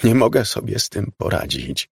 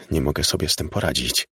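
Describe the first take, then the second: First: More forceful, anguished admission; sobbing repetition. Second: Low, quick, tearful admission; understated sob, voice dropped low; restrained sobbing. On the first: Weeping veteran insists to his lover, anguished. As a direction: push the despair out, mildly tearful. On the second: Veteran breaks down before his lover, subdued tearfulness. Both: A narrator's reading. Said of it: "powiedział, szlochając".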